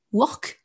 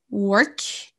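First: "work" with a round French O and a rolled R; "work" like a French learner; French-style work. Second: "work" with an English vowel, r barely sounded; "work" as a native says it. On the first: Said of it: "comme vous prononcez le O comme un O français". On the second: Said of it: "vous ne dites pas". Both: Shown as a demonstration.

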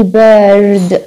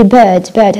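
First: "bird" with the R sounded, drawn out; American R in bird. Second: "bird" with a long schwa and silent R; British bird without R. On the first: Teacher showing what British speakers don't say, R sounded in "bird". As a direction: pronounce a clear R after the vowel in "bird". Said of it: "ما بنحكي bird". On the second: Teacher demonstrating the British form, R-less "bird". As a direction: drop the R in "bird", just the long vowel. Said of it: "هذا في البريطاني مستحيل". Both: Shown as a demonstration.

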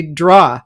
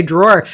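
First: "draw" zonder r aan het eind, open aw; "draw" for a drawer, no final r; says draw. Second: "drawer" met duidelijke r aan het eind; "drawer" with a clear final r; says drawer. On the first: Shown as a demonstration. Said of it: "I say". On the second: Retold or imitated. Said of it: "You say".

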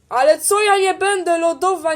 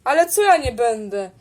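First: Indignant higher retort. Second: Said in the usual way. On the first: Acted. Powtórka tej samej kwestii, wyżej.

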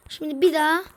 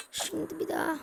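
First: Said in the usual way. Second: Soft muttered retry; quiet to self; hushed. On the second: Real, not acted. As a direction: say it under the breath.

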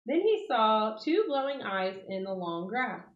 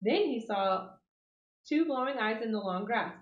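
First: Said in the usual way. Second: "Then he saw" then a pause before "two glowing eyes"; suspenseful pauses. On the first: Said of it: "reread slowly". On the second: A narrator's reading. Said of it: "reread with pauses".

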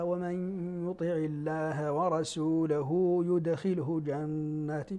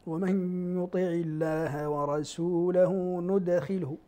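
First: يدخله recited slowly with a ya at the start, yudkhilhu; slow Quranic recitation of يدخله with ya; reading with ya. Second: ندخله recited slowly with a clear nun at the start, nudkhilhu; slow Quranic recitation of ندخله with nun; reading with nun. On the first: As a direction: chant يدخله beginning with ya. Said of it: "غيرهما من السبعة قرأ". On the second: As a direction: chant ندخله beginning with nun. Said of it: "قرأوا بالنون". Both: Shown as a demonstration.

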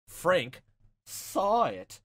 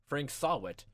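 First: "Frank saw it" split by pauses, each part punched louder; pun spelled out. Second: Said in the usual way. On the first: Shown as a demonstration. Gamer spells out a culprit's pun name, each part punched. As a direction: land "Frank", pause, then hit "saw it" loud and higher. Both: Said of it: "some form of pun".

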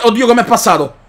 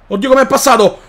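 First: Said in the usual way. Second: Laughing disbelief. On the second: Real, not acted. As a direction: laugh through the words. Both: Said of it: "repeated with laugh".

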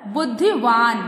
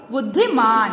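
First: "बुद्धिवान" ending in a stretched vaan; incorrect word form. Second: "बुद्धिमान" ending in a stretched maan; correct word form. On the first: Teacher shows the wrong word, "बुद्धिवान" measured, ending in vaan. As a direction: say "बुद्धिवान" with v in the last syllable. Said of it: "अशुद्ध word जो है वो है". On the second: Teacher corrects the children's word, "बुद्धिमान" measured, ending in maan. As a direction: say "बुद्धिमान" with m in the last syllable. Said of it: "क्या होता है बच्चों?". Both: Shown as a demonstration.

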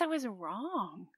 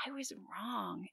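First: Said in the usual way. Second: Whispered, slow and much softer. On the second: Real, not acted. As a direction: let the admission fall to a whisper. Admits her mistake, repeated twice.

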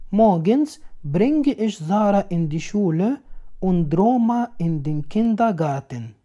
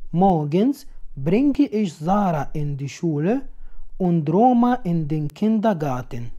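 Both takes have the same delivery.

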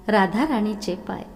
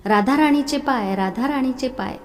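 First: Said in the usual way. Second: Higher and louder desperate call. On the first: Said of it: "तो म्हणाला". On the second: A narrator's reading. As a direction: cry out for her across the temple. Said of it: "जोरजोरात हाक मारू लागला".

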